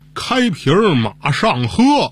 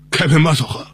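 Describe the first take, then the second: First: The phrase is spoken slowly with each syllable clear. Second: The phrase is spoken a little more slowly. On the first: It turns out to be a plain Chinese sentence. "您再慢点说" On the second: It is passed off as a French sentence. "您慢点说"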